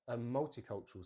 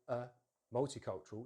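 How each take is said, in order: First: The article runs straight into the next word. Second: The article is set apart from the next word. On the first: The speaker calls it right. "it kind of joins together" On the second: The speaker calls it wrong. "notice I don't go"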